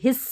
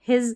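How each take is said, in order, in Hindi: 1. यह शब्द सिसकती s की आवाज़ से खत्म होता है। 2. यह शब्द गुनगुनाती z की आवाज़ से खत्म होता है। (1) "हिस्स नहीं बोल रहे" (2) "ज के रूप में एस का प्रोनाउंस"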